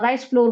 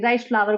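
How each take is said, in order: First: Flour is said like the word floor. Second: Flour is said like the word flower. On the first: The speaker calls it wrong. "Rice फ्लोर बोल रही थी" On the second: The speaker calls it right. "उसको फ्लावर बोलते हैं"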